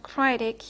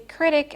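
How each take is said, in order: First: The stressed vowel is long and free. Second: The stressed vowel is short and checked. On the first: The speaker calls it wrong. "and not critic" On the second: The speaker calls it right. "you say critic"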